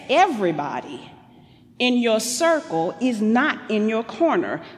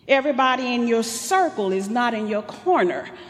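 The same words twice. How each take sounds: First: It is said slowly. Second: It is said fast.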